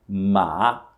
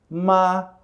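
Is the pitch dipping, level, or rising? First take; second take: dipping; level. First: The pitch falls first and then rises. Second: The pitch stays level and flat throughout. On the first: "o tom que desce e depois sobe" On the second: "o tom plano. ... ele não tem alteração"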